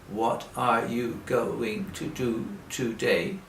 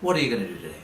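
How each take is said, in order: First: It is said slowly, word by word. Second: It is said fast and run together.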